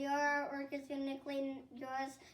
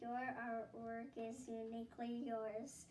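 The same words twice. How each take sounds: First: It is said very fast. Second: It is said very slowly.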